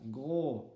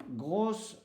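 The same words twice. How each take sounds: First: "Gros" ending on the O, S left silent. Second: "grosse" with the S sounded, E silent; silent final E. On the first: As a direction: say "Gros" without any S sound. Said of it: "le S ne se prononce pas". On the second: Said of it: "le E ne se prononce pas". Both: Shown as a demonstration.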